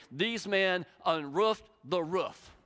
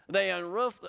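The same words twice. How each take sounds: First: Slow, each word weighed, UNROOFED leaned on; savoring the phrase. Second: Said in the usual way. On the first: Shown as a demonstration. Preacher relishing a Greek phrase, slow and stressed. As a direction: draw out "unroofed" slowly and lovingly. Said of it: "I love this phrase in the Greek". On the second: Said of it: "You like that?".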